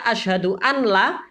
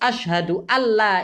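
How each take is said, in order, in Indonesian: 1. Bunyi n dilafalkan terpisah sebelum l. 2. Bunyi n menyatu menjadi bunyi l yang ganda. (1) "Kalau dibaca asyhadu an la itu tidak sah tasyahudnya" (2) "Harus tasdidnya di sini dibaca"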